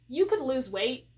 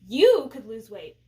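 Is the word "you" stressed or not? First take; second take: not stressed; stressed. First: The word you is not stressed. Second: The word you is strongly stressed.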